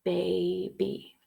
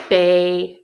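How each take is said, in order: First: Soft syllable check. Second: Clapped syllables. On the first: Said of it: "Let's feel it one more time". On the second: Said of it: "let's clap out". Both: Shown as a demonstration.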